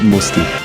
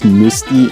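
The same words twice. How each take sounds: First: The name is said with English pronunciation. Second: The name is said with French pronunciation. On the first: "I'm gonna have to pronounce it Musti" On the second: "pronounced Musti in French"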